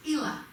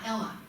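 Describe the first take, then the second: First: Ela said EE-la, long ee; long ee starting "Ela"; corrected name Ela. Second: Ella with a short e, EL-la; short first vowel in "Ella"; wrong name Ella. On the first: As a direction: open Ela with the vowel of "eel". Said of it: "not Ella". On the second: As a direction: say Ella to rhyme with "fella". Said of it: "I'm tired of correcting people". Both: Shown as a demonstration.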